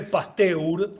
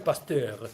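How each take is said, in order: First: Pasteur read letter by letter in Spanish, pas-te-UR; pronounced as spelled. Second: Pasteur said as pas-TER, two syllables; French-style pronunciation. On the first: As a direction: say Pasteur as written, sounding both E and U. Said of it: "Se escribe Pasteur". (Pasteur pronunciado como se escribe, pas-te-ur) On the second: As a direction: say Pasteur with no U sound, ending in -ter. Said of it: "se pronuncia Pasteur". (Pasteur pronunciado «pastér», sin la u) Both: Shown as a demonstration.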